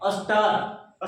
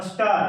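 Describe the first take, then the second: First: star stretched very slowly to its end; drawn-out demonstration. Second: Said in the usual way. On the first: Shown as a demonstration. Teacher answers what we will say, drawn out slowly. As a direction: draw star right out. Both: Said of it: "क्या बोलेंगे".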